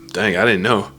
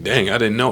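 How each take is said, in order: First: It is said in a sarcastic, mocking tone. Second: It is said in an innocent, sincere-sounding tone. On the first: The speaker is mocking the person who made the remark. "with that sarcasm" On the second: The speaker pretends to be grateful for the remark. "with that that innocence of like"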